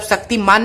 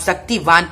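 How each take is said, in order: First: "शक्तिमान" ending in -maan, with an m; wrong reading. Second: "शक्तिवान" ending in -vaan, with a v; corrected reading. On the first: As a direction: give the mistaken m in "शक्तिमान". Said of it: "शक्तिमान नहीं पढ़ेंगे इसे". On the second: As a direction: give a clear v in "शक्तिवान". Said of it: "आप शक्तिवान पढ़ेंगे". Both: Shown as a demonstration.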